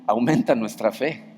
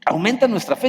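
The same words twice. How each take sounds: First: Slow, lower, rising plea; hushed, slow group request; slow chorus plea. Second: An urgent cry to be given more faith; higher, pressing appeal; higher exclaimed plea. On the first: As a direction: draw out "Aumenta nuestra fe" slowly with a rising end. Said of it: "y a coro le dicen". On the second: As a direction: pitch "Aumenta nuestra fe" higher and stress "fe". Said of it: "los discípulos cuando oyen esas cosas dicen". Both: Retold or imitated.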